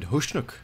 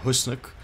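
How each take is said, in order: First: The middle consonant is an sh sound. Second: The middle consonant is a plain s sound. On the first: "like there was an invisible H somewhere after the S" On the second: "it's spelled Husnuk"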